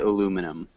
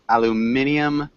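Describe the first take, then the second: First: It is said in an American way. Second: It is said in a British way. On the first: "In New England, at least, we would say aluminum" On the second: "which is how the um, people in Great Britain say it"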